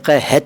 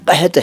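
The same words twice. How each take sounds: First: The h is followed by a full vowel. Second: The h is half, with no vowel after. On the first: The speaker calls it wrong. "ये कहत नहीं है" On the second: The speaker calls it right. "कहत यानी आधा ह"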